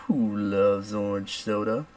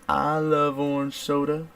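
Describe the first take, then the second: First: Sitcom catchphrase question. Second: High, slow sustained answer; sitcom catchphrase answer. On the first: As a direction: pose it slowly, like a TV catchphrase. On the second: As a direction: answer in a drawn-out, raised catchphrase voice. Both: Retold or imitated. Quoting favorite show's call and response.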